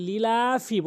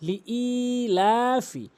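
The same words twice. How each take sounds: First: লিলাফি with the ই run into লি, not held; common mispronunciation. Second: লিইলাফি with a separate, long held ই; correct pronunciation. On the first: Teacher shows learners the first mistake, ই dropped from লিলাফি. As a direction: say লিলাফি short, skipping the separate long ই. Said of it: "প্রথম ভুলটি হচ্ছে লিলাফি বলি". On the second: Teacher models the correct word, ই drawn out in লিইলাফি. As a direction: slowly stretch the ই after লি in লিইলাফি. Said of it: "সঠিক উচ্চারণ হচ্ছে লিইলাফি". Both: Shown as a demonstration.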